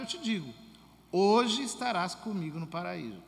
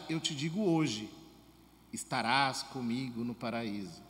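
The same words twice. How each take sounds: First: The pause comes right before 'hoje'. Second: The pause comes right after 'hoje'. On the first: Being in paradise happens today. The speaker calls it right. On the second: The telling happens today. The speaker calls it wrong.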